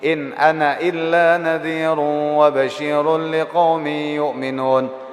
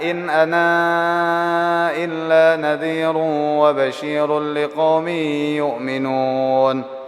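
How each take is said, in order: First: The final vowel of 'ana' is short. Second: The final vowel of 'ana' is long. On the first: "Hasfal alif" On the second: "Boleh juga isbat macam macam siapa? Macam wa waras"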